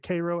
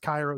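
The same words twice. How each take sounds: First: The name is said the way Illinois locals say it. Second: The name is said as for the Egyptian city. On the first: "They say Cairo, Illinois" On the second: "It's Cairo, Egypt"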